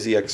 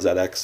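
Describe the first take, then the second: First: The letter Z is said the non-British way. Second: The letter Z is said the British way. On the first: "You'll notice I say Z X Spectrum" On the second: "That's the British pronunciation of the letter Z"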